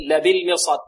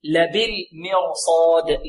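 First: Said in the usual way. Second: Slow لبالمرصاد with a full, heavy r and long final vowel. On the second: Shown as a demonstration. Teacher models the word for students, slow heavy ra in لبالمرصاد. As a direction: stretch لبالمرصاد, thickening the r and saad. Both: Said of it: "تفخم الراء".

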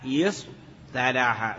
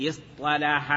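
First: يصطلح with a plain light t after the ṣ, very slow; original form with light t. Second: اصطلح with a heavy emphatic ṭ after the ṣ; t changed to emphatic ṭ. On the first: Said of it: "صاد ثم التاء". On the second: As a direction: slowly sound the ṭ in اصطلح. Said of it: "فلا بد من قلب التاء طاء". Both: Shown as a demonstration.

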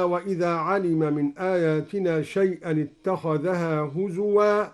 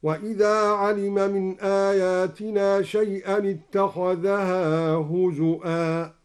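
First: Said in the usual way. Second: Chanted tartil ending on هزؤا with a clear hamza, huzu'an; recited with hamza. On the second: Shown as a demonstration. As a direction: intone هزؤا with a firm glottal stop. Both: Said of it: "هكذا".

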